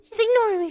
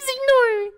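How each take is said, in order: First: Said in the usual way. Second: Indignant. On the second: Real, not acted.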